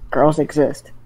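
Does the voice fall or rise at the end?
fall. The voice falls at the end. It states that girls exist. "Was that a question or a statement?"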